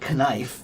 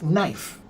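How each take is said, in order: First: The K is pronounced before the N. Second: The K is silent before the N. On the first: This is the old Northern European pronunciation. The speaker calls it wrong. "They still pronounce it with the K N" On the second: This is the modern English pronunciation. The speaker calls it right. "we changed the pronunciation"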